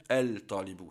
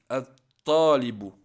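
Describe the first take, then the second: First: "el-talibu" with the L of the article pronounced; wrongly sounded lam. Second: Slow, loud "At-talibu" with no L and doubled T; lam silent, shadda. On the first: Teacher showing learners the mistake to avoid, sounded L in "el-talibu". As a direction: say "el-talibu" with an audible L before the T. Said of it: "On va pas dire el-talibu". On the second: Teacher shows how to pronounce it, long doubled T in "At-talibu". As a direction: say "At-talibu", holding and then hitting the T hard. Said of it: "on prononce comme ceci". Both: Shown as a demonstration.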